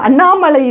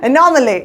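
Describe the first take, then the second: First: It sounds like the Tamil name Annamalai. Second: It sounds like the English word anomaly. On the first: The speaker calls it wrong. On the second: The speaker calls it right.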